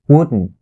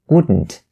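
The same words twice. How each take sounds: First: The final T sound is stopped, not released. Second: The final T sound is fully released. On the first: The speaker calls it right. "you only have to stop the T sound right there" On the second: The speaker calls it wrong. "You don't say"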